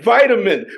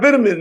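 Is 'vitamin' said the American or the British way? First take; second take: American; British. First: It is said the American way. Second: It is said the British way. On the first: "We say vitamin" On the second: "but I got vitamin now"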